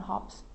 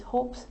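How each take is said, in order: First: Hops with a short o, like hop; the wrong take, hops; wrong vowel, hops. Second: Hopes with a long o, rhymes with ropes. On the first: Teacher showing the student's mistaken hops. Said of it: "not hops". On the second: Teacher contrasting hopes with hops for students. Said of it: "So it's hopes, not hops". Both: Shown as a demonstration.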